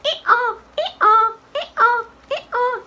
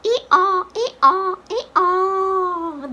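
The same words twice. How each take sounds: First: Put-on high, short girlish ee-aws; clipped high-pitched donkey calls; donkey bray. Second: Sing-out ee-aw, last one drawn out; donkey calls ending on a long falling aw; donkey bray. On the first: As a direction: bray high like a little girl. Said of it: "how the donkey say". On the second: Shown as a demonstration. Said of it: "The donkey says".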